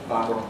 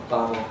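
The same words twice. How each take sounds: The two takes are said the same way.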